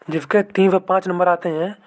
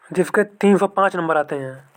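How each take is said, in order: Both takes have the same delivery.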